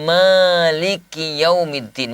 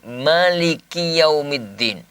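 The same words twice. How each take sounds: First: The vowel after the m is long. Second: The vowel after the m is short. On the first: "mimnya itu panjang" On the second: "mimnya pendek"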